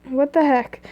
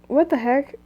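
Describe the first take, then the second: The two takes are said the same way.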